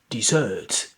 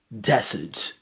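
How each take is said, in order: First: The stress is on the last syllable. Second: The stress is on the first syllable. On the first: A sweet dish served after the main meal. "dessert, the first one, this rests in the last syllable" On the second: A dry place of sun and rocks. "the second one, this rests in the first syllable"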